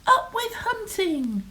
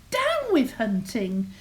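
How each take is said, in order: First: High falling slogan shout; storybook rallying cry, pitched high; shouted cheer. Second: Storybook dinosaur hoot, falling from DOWN; lightly hooted protest chant. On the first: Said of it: "And they shouted". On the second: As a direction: hoot it as a mild slogan. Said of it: "for he hooted". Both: A narrator's reading.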